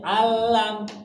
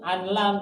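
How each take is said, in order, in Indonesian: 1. Bunyi n hilang menjadi l yang dobel. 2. Bunyi n dibaca sebelum l. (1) "Jadi langsung aja" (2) "Bukan bacanya"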